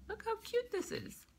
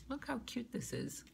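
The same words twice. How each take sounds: First: Squealed repeat. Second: Said in the usual way. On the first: Real, not acted. Repeat pitched way up.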